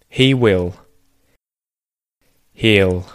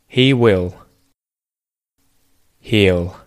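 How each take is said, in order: Both takes have the same delivery.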